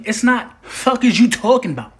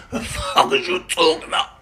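First: Said in the usual way. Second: "The fuck is you talking about?" slurred together, words run into each other; slurred right way. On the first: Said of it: "Why do I hear every single word that you saying?". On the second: Shown as a demonstration. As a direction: mush it all into one slurred phrase. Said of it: "It's like this".

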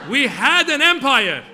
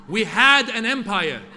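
First: Put-on higher, much louder, slow proclamation in a Persian accent; booming Persian accent. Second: Put-on loud, slow, proud line in a Persian accent. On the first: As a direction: bellow it like a grand declaration, Persian accent. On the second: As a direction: declare it with pride, slowly, Persian accent. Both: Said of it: "And my dad would say".

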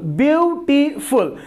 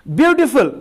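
First: beautiful said slower, with each syllable set apart; split into syllables. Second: Said in the usual way. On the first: Shown as a demonstration. Teacher breaking the word into syllables for the class, a bit slower. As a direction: draw beautiful out beat by beat. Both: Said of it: "तो इनको हम break करते हैं".

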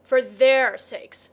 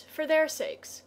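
First: Loud, drawn-out indignant echo; booming, slow retort. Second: Put-on high, slow girl's voice; higher-pitched, unhurried earnest appeal. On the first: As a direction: throw the words back loudly and slowly. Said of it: "very loudly". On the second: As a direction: plead it gently on a raised pitch. Girl's take, then Leo echoes it. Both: A narrator's reading.

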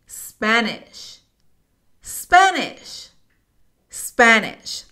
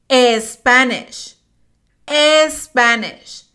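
First: Spanish sin e inicial, "spæ-nish" con a abierta; pronunciación correcta. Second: Spanish con e inicial, "espanish", acento español; pronunciación incorrecta. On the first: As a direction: decir Spanish limpio, sin vocal delante. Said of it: "La pronunciación correcta es esta". (Spanish correcto, sin e inicial) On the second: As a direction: decir Spanish como "espanish". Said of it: "Lo pronunciamos así". (pronunciación incorrecta de Spanish con e inicial) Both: Shown as a demonstration.

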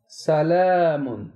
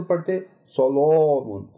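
First: सलामुन slow, with a thin, light aa; fine alif. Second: सलामुन with a heavy, dark, rounded aa; thick alif, wrong. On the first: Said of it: "हम इसको बारीक पढ़ें". (बारीक अलिफ से सलामुन) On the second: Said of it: "अलिफ को मोटा पढ़ रहे होते". (मोटा अलिफ, गलत तरीका) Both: Shown as a demonstration.

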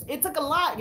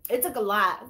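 First: Said in the usual way. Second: Whispering the line again to the viewers; whispered. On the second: Real, not acted. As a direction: breathe it out as a whisper. Repeated testimony line.

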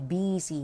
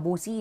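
First: "busy" pronounced BIZ-ee; correct "busy" vowel. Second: "boozy" with an oo first vowel; misread "busy". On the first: Teacher shows learners the reading, "busy" as biz-ee. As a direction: say "busy" with an i sound in the first syllable. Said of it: "อันนี้อ่านว่า busy". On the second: Teacher warns learners of a misreading, "boozy" with oo. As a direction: say "boozy" as BOO-zee, the mistake to avoid. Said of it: "ไม่เอา boozy นะ". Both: Shown as a demonstration.

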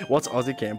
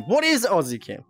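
First: Said in the usual way. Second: "is" stretched out in full and punched; full "What IS", not contracted; stress on IS. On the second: Real, not acted. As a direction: lean hard on "is", puzzled. Repeats question with emphatic is.

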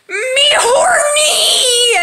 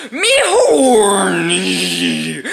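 First: Horny shout. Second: Slow drawn-out brutish Hulk moan. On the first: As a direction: stretch out a high yelp of lust. Bruce Banner climaxing, before the Hulk. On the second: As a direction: drag each word like a dumb brute. Now speaking as the Hulk. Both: Acted.

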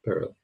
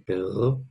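First: "perro" with one short tap, like pero; single tapped R. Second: "perro" with a long trilled r; rolled R. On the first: Teacher shows the other word, "perro" with a tapped R. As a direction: tap the r in "perro" quickly, no roll. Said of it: "This one's perro". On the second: Teacher tells students to roll it, "perro" with a long trill. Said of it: "roll your R". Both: Shown as a demonstration.

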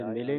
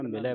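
First: ਮਿਲੇ ending in a close "e"; wrong vowel ending. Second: ਮਿਲੈ ending in an open "ai"; open vowel ending. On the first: Teacher shows what to avoid, ਮਿਲੇ with close "e". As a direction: say ਮਿਲੇ with a narrow final "ay". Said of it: "ਮਿਲੇ ਨਹੀਂ ਪੜ੍ਹਨਾ". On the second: Teacher gives learners the correction, ਮਿਲੈ with open "ai". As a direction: say ਮਿਲੈ with a wide final "eh". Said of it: "ਮਿਲੈ ਪੜ੍ਹਨਾ". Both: Shown as a demonstration.

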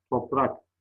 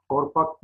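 First: Said in the usual way. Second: "Torpak" with r before p; swapped r and p in "Torpak"; misspelt form. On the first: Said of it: "doğrularını yazalım". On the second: Shown as a demonstration. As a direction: say toprak as "Torpak". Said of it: "yanlış yazılmış olan sözcüklerin".

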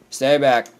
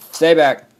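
First: Raised-voice warning. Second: Loud, higher warning yell; warning shout. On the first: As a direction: warn it away, louder. Warding off an attacker. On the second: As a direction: shout the attacker away. Warding off an attacker, louder. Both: Real, not acted.

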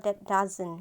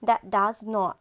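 First: "doesn't" run together as one word; contracted spoken form. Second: "does not" as two separate full words; full form. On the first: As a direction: contract it to "doesn't", ending on n't. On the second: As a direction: say "does not" uncontracted, with a clear "not". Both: Shown as a demonstration. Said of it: "ถ้าเวลาพูดจริงๆก็จะพูดว่า".

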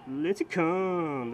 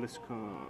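First: Slow, louder announcer-style Lincecum; drawn-out name. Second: Lincecum said much softer and lower; muttered aside. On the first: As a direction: stretch out Lincecum like announcing him. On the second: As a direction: drop it to a mumble to yourself. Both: Pretend. Repeating the player's name.

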